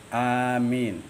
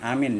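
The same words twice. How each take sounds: First: The vowel is held for two beats. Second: The vowel is not held for two beats. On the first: The speaker calls it right. "dua harakat" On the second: The speaker calls it wrong. "bukan amin ya"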